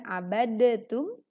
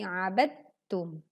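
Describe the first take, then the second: First: An extra vowel separates the d and t. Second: The d and t join with no vowel. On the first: The speaker calls it wrong. "bukan abadatum" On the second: The speaker calls it right. "tetapi abadtum"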